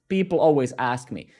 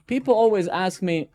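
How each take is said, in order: First: Said in the usual way. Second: "People" punched higher and louder, like a post opener; stress on people always. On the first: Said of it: "The emphasis is people always". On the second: Shown as a demonstration. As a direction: hit "People" hard as a LinkedIn hook. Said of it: "I'm gonna demonstrate LinkedIn".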